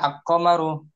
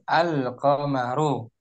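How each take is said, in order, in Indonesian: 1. L melebur ke dalam Q yang ganda. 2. L pada artikel jelas dibaca. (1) "Tidak dilebur ke qaf, tidak al-qamaru" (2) "tapi al al-qamaru. Jelas lamnya ya dibaca"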